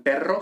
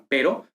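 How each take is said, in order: First: "perro" with a full rolled trilled rr; trilled rr, wrong way. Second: "pero" with a single tapped r, not rolled; tapped r, right way. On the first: Teacher contrasting the wrong rho sound, "perro" with a rolled rr. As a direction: roll the rr in "perro" as the example not to follow. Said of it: "no como en perro". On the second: Teacher confirming the correct rho, "pero" with one tap. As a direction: flick the r once in "pero". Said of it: "sino como en pero". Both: Shown as a demonstration.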